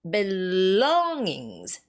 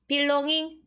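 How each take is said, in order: First: The stress is on the second syllable. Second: The stress is not on the second syllable. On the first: The speaker calls it right. "That's second syllable" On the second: The speaker calls it wrong. "No, no, no"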